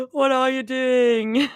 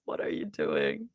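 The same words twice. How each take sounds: First: Slow, higher put-on voice; playful slow-motion question; drawn-out stim. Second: Said in the usual way. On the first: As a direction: stretch it out in a silly voice. Repeats line in two ways.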